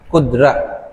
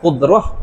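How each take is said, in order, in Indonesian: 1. Kata itu berakhir dengan bunyi t yang jelas. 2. Kata itu berakhir dengan bunyi h yang lembut. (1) "Tapi lorak Melayu kudrat"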